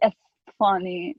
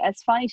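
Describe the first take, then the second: First: It is said with a lisp, Esfahani style. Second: It is said plainly, without a lisp.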